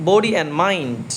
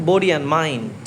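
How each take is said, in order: No difference in how they are said.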